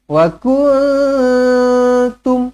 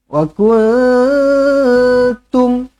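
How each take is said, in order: No difference in how they are said.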